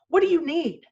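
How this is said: It is said in a short, annoyed tone. The speaker is reacting to being interrupted. The speaker calls it wrong. "that's the tone, that's the way I would have sounded"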